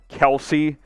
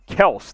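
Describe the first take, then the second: First: The name is said with two syllables. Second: The name is said with one syllable. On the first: This is the actual name. The speaker calls it right. "It's pronounced Kelsey" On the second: This is only a nickname. The speaker calls it wrong. "It's not Kels. That's a nickname"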